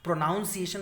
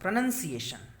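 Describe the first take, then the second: First: The second syllable sounds like 'nown'. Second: The second syllable sounds like 'nun'. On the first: The speaker calls it wrong. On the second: The speaker calls it right.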